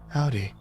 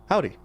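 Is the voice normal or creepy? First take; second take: creepy; normal. First: It is said in a creepy voice. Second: It is said in a normal voice.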